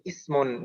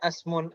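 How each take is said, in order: First: The first vowel is an 'i' sound. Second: The first vowel is an 'a' sound. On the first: The speaker calls it right. "selalu dibaca kasroh. Jadi ismun" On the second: The speaker calls it wrong. "Jangan sampai dibaca asmun"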